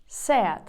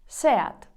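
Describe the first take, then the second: The two takes are said the same way.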